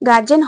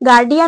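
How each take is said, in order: First: The middle consonant is a j sound. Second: The middle consonant is a d sound. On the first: The speaker calls it wrong. "গার্জেন হয় না" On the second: The speaker calls it right. "আসল উচ্চারণ হচ্ছে গার্ডিয়ান"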